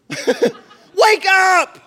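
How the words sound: It is said loudly and frantically. Someone is being woken in alarm. "They're freaking out"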